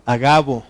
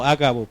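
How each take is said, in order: First: "Agabo" stressed on the middle syllable, ga; "Agabo" as a-GA-bo, loud on GA; correct stress. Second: "Ágabo" stressed on the first A; "Ágabo" as A-ga-bo, first syllable hit; wrong stress. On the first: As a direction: say "Agabo" firmly with no accent on the first A. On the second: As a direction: demonstrate the mistaken "Ágabo", accent up front. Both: Shown as a demonstration. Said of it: "porque no lleva acento en la A".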